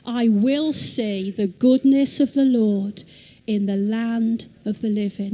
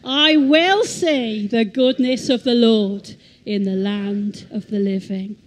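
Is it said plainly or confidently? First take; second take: plainly; confidently. First: It is said plainly, without extra confidence. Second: It is said with more confidence.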